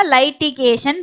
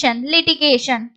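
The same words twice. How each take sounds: First: "லைட்டிகேஷன்" opening with "lie"; mispronounced first vowel. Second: "லிட்டிகேஷன்" opening with "lee"; correct first vowel. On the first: Teacher quotes learners' misreading, starting "லைட்டிகேஷன்" with "lie". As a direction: say "லைட்டிகேஷன்" with an eye sound in the first syllable. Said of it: "இது கரெக்டான உச்சரிப்பு லீ". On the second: Teacher gives learners the right form, starting "லிட்டிகேஷன்" with "lee". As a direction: say "லிட்டிகேஷன்" with an ee sound in the first syllable. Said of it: "ஐ, ஈ போட்டீங்கன்னா லீ". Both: Shown as a demonstration.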